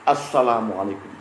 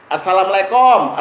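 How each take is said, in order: First: It is said in a standard, careful way. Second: It is said in a Betawi-style accent.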